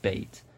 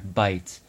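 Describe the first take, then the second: First: The vowel is a steady sound, like 'ay'. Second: The vowel glides as a diphthong, like 'eye'. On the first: This is the form most people actually use. "the vast majority of people, even when speaking modern standard Arabic, will still say bait" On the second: This is the formal standard form some teachers expect. "There's a special diphthong there"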